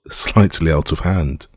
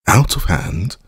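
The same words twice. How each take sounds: First: Said in the usual way. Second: Scornful echo, pitched up; disparaging. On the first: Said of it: "Holmes began". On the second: A narrator's reading. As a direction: throw the words back with disdain. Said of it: "I repeated disparagingly".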